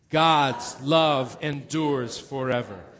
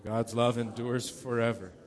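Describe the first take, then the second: First: It is said loudly, with great passion. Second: It is said quietly, without extra passion.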